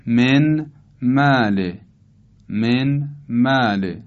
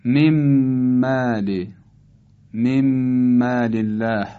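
First: «من مال» slowly as men, pause, māl; unmerged reading. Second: «من مال» as mem-māl, one long hummed m; idgham. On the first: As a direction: keep a clear ن in «من مال», words apart. (خواندن آهستهٔ «من مال» با نون آشکار) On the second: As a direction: turn the ن of «من مال» into a held م. («من مال» با ادغام نون در میم مشدد) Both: Shown as a demonstration. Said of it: "تلفظ صحیحش اینطوره".

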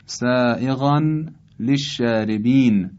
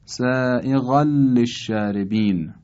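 First: «سائغاً للشاربین» as sā'eghan, pause, lesh-shārebin; unmerged reading. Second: «سائغاً للشاربین» as sā'eghal-lesh-shārebin, joined; idgham. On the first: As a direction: keep the n of «سائغاً» clear. (خواندن «سائغاً للشاربین» با تنوین آشکار) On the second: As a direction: merge the n of «سائغاً» into a double ل. («سائغاً للشاربین» با ادغام تنوین در لام) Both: Shown as a demonstration.

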